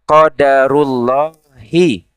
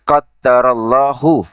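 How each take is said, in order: First: The d is single, with a noun ending. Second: The d is doubled, with a verb ending. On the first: It is the decree of Allah. "qadarullahi idhofah" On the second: Allah has decreed it. "qaddara itu fiil"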